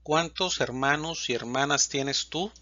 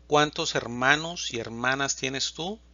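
No difference in how they are said.

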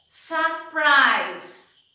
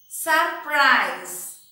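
No difference in how they are said.

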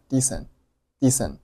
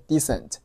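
First: "decent" ending on n with t held back; unreleased t. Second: Said in the usual way. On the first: Shown as a demonstration. Teacher showing learners "decent" with no t burst. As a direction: swallow the last t of "decent". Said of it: "结尾的t没有爆出来".

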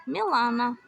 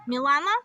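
First: Said in the usual way. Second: Мілана called out louder, rising at the end; calling a name. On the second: Real, not acted. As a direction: call her name like a question across the yard. Calling out to Milana.

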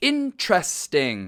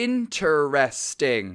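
First: Interesting said IN-tres-ting, the second syllable dropped; American three-syllable interesting. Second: Interesting said in-ter-es-ting, four syllables. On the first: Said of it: "อเมริกันจะอ่านออกเสียงแค่สามพยาง". (ออกเสียง interesting แค่สามพยางค์ อิน-เทรส-ติ้ง) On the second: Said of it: "การออกเสียงดั้งเดิมคือสี่พยางค์". (ออกเสียง interesting ครบสี่พยางค์ อิน-เทอ-เรส-ติ้ง) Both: Shown as a demonstration.

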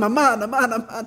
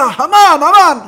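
First: Said in the usual way. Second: Shouted name. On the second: Shown as a demonstration. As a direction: call out the name loud and high. Calling out Haman's name.

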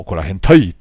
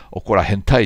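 First: 怒ら変態 said out loud in a Kansai-meets-Kyushu dialect, louder; louder, playful dialect take on 怒ら変態; mixed dialect delivery. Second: Said in the usual way. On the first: Shown as a demonstration. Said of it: "なんて言うとね、言葉で言うと". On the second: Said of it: "関西弁となんか九州弁が混ざったような感じ".

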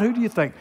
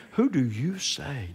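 First: "Who do you think" higher and quicker; higher-pitched "Who do you think"; contrasting question. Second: Slow stress on "you"; "you" leaned on slowly; emphatic question. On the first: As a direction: toss out "think" as the wrong word. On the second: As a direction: draw out "Who do you say". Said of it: "This is a question he asked of you". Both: Acted.

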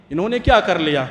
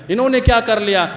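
First: Said in the usual way. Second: Louder, higher dismissive scoff; mock scornful question. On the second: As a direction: imitate an arrogant youth sneering. Voicing youths' dismissive thought, louder. (طنزیہ انداز میں)

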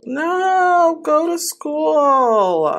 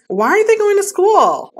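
First: Slow, drawn-out exasperated plea. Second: High, loud, exasperated "Why aren't they going to school?"; frustrated shout. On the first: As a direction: stretch it out, fed up. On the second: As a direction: yell it out in real frustration. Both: Real, not acted. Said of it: "I'm so mad".

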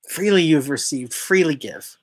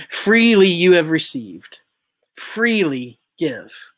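First: Said in the usual way. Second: Slow solemn quote. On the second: Shown as a demonstration. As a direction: lean on Freely, then draw out freely give. Quoting scripture, then repeating it.

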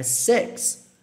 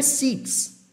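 First: "six" with a short vowel near E; six correto. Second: "six" with a long EE, "seeks"; six errado. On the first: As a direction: say "six" with a lax, E-like I. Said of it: "como se fosse um E". ("six" quase como "seks") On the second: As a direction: say "six" with a Portuguese I. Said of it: "não é six". ("six" com I fechado, "siks") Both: Shown as a demonstration.

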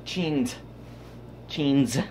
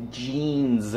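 First: Jeans. with a hard ch sound and falling tune; Jeans. said as cheenz; jeans not with a Z. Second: Jeans. like zheenz, falling. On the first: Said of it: "Not with a Z". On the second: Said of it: "we pronounce it like a Z". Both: Shown as a demonstration.

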